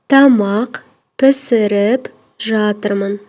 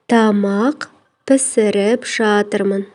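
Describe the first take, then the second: Both takes have the same delivery.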